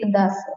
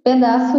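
First: The first vowel is dropped or reduced. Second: The first vowel is fully pronounced. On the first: "In Portugal, they will say" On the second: "we say in Brazil"

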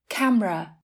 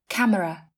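First: The word is said with two syllables. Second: The word is said with three syllables.

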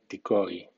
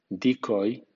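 First: The stress is on the second syllable. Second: The stress is on the first syllable. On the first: It is used as a verb. "como verbo suena decoy" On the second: It is used as a noun. "como nombre suena decoy"

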